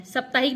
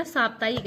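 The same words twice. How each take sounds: First: साप्ताहिक with short first vowel, sap-; wrong form. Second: साप्ताहिक with long first aa; correct form. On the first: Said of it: "साप्ताहिक नहीं होता". (गलत उच्चारण, साप्ताहिक में छोटा अ) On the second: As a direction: open wide on the first आ of साप्ताहिक. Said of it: "ये शुद्ध शब्द होता है". (सही उच्चारण, साप्ताहिक में लंबा आ) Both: Shown as a demonstration.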